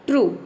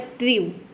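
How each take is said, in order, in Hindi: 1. स्वर "oo" की तरह बोला जाता है। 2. स्वर "yoo" की तरह बोला जाता है। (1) "फिर आपने इसे प्रोनाउंस किया ऊ" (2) "पहले आपने यू ई के जगह पे यू रखा"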